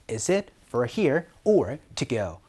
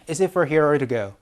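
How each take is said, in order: First: Each word is said separately and clearly. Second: The words are run together quickly and smoothly. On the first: The speaker calls it wrong. "이렇게 또박또박 얘기를 하지 않아요" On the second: The speaker calls it right. "이렇게 막 굴려가지고 얘기를 할 거예요"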